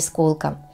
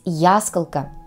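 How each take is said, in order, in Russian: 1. Ударение на втором слоге. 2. Ударение на первом слоге. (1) "а не исколка" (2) "с ударением на первый слог, то есть ясколка"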